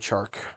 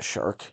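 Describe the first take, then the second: First: The name begins with a 'ch' sound. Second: The name begins with an 'sh' sound. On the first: The speaker calls it right. "DJ Chark" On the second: The speaker calls it wrong. "not Shark"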